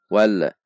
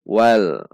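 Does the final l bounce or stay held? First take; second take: bounces; held. First: The final l bounces off with a release. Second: The final l is held without bouncing. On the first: The speaker calls it wrong. "kesalahan yang sering terjadi adalah memantul. Contoh wal" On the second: The speaker calls it right. "Supaya tidak memantul, tahan di titik lam"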